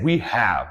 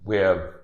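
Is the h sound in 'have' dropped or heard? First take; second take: heard; dropped. First: The h in have is clearly pronounced. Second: The h in have is left out. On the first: "because I said we have. You, you see, I emphasized it" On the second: "when the H is dropped in the verb have"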